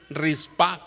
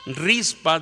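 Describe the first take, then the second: First: The stress is on the last syllable. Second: The stress is on the first syllable. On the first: This is the form in other Bible versions. "con acento en la A" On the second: This is the form in one Bible version. "dice la versión sesenta"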